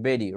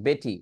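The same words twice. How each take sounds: First: "বেরি", the T of Betty tapped; flap T. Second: "বেটি" with a true T; clear T. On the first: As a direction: tap "বেরি" like "bedi". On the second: Teacher reading the word as spelt, clear T. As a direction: sound the T fully in "বেটি". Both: Shown as a demonstration. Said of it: "বেটিকে চাইলে কি বলা যায়".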